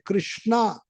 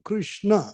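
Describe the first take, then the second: First: The final vowel is long. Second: The final vowel is short. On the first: It names Draupadi. The speaker calls it wrong. "कृष्णा नहीं" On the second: It names Krishna. The speaker calls it right. "उच्चारण स्पष्ट करना चाहिए"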